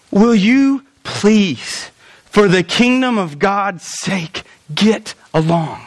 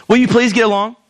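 First: Very slow, drawn-out pleading; earnest plea. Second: A mild, polite ask with no urgency; polite request. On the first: Pastor voicing Paul begging the church, slow and pleading. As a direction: beg them slowly, weighing every word. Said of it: "I think he says this". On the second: Pastor showing how Paul did not say it, politely. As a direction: ask nicely, almost casually. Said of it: "I don't think he says it like this". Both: Shown as a demonstration.

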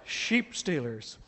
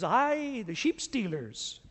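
First: Slow, musing repeat of "Sheep stealers" in his own voice; slow musing echo. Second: Put-on a light Scottish accent, slowed down on "the sheep stealers"; slow Scottish burr. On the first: Shown as a demonstration. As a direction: let "Sheep stealers" sink in, slowly and dryly. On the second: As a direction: draw out "the sheep stealers" like a Scots shopkeeper teasing. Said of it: "He goes".

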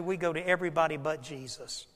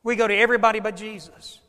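First: Low, soft, a sad aside; quiet lament. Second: Faster and firmer; brisk emphatic repeat. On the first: Preacher confessing to the crowd, low and soft. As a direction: let it fall softly. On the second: Preacher driving the point home, faster and firmer. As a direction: snap it out quickly. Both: Shown as a demonstration.

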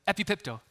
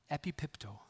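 First: Epipipto called out loud and high as eh-pee-PEEP-toe for the crowd to echo; leading the repeat. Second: Epipipto said as eh-pee-PEEP-toe, each syllable clear and even; Greek word said slowly. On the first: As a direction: lead the room in saying epipipto. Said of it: "Can you say that with me?". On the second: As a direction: sound out epipipto carefully for the congregation. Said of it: "The Greek word here is". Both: Shown as a demonstration.

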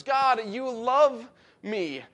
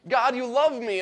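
First: God, you love me drawn out very slowly; slow, reverent marveling; slow, awed. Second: Said in the usual way. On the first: Shown as a demonstration. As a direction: linger on each word in wonder. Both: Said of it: "in other words".

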